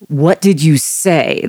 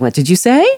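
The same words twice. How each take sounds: First: The pitch falls at the end. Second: The pitch rises at the end. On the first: "there's a falling tone there" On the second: "if you put a mm-hmm. question mark, it's a very different"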